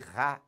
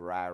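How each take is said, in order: First: The R is harsh and scraped in the throat. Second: The R is soft and light, not throaty. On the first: The speaker calls it wrong. "nunca vai ter som de Rá, Ré, arranhando a garganta" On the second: The speaker calls it right. "aquele som fraquinho"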